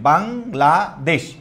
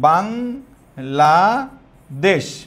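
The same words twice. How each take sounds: First: It is said with Bengali pronunciation, three parts. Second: It is said with English pronunciation and vowels. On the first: "আমরা এটা তিন পার্টে উচ্চারণ করছি" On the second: "এখন আমরা যদি এটাকে এইভাবে বলি"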